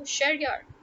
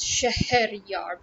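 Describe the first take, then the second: First: The name is said in a quick, reduced form. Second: The name is said in its full, careful form. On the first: This is how native speakers actually say it. "We speak rapidly" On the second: This is the original literal pronunciation. "its original literal pronunciation"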